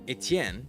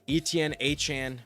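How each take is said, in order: First: The name is pronounced the French way. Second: The name is pronounced the English way.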